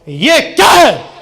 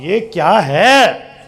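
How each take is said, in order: First: It is said in an angry tone. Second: It is said in a delighted, admiring tone.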